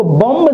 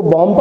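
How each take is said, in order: First: बॉम्ब with the final b sounded; wrong pronunciation. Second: बॉम्ब said as "bom", ending on m; silent b. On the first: Teacher shows the mistaken reading, बॉम्ब with voiced b. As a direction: release an audible b at the end of बॉम्ब. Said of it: "इसको बॉम्ब नहीं पढ़ते". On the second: Teacher shows the correct reading, बॉम्ब with silent b. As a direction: drop the final b of बॉम्ब. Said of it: "इसको बॉम्ब पढ़ते हैं". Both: Shown as a demonstration.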